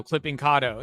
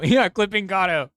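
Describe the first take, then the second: First: Said in the usual way. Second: Laughing. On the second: Real, not acted.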